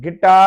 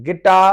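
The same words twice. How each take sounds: Both takes have the same delivery.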